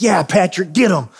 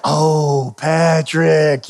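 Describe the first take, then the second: First: Mild, quick cheer of approval. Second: Drawn-out, let-down sigh of a name; frustrated groan. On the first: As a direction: egg him on, lightly acted. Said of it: "seventy-five percent of the time I'm like". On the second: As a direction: stretch both words in mock dismay. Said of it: "And I get frustrated". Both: Retold or imitated.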